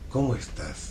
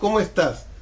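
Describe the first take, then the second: First: The voice resonates low, in the chest. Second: The voice resonates high, in the head. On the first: The speaker sounds warm and emotionally present. The speaker calls it right. "Le tienes que hablar" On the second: The speaker sounds cerebral and detached. The speaker calls it wrong. "Tú no le puedes hablar así a un niño"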